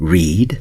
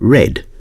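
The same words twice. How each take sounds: First: The vowel is long, as in 'see'. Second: The vowel is short, as in 'bed'. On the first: The action is a habit in the present. "In the first case, it's read" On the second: The action happened in the past. "and in the second case, read"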